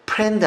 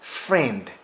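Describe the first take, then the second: First: It starts with a P sound, lips closed. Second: It starts with an F sound, air hissing out. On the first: The speaker calls it wrong. "friend 아닙니다. friend는 P 사운드입니다" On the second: The speaker calls it right. "바람 소리가 들리셔야 됩니다"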